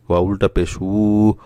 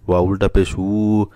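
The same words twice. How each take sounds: The two takes are said the same way.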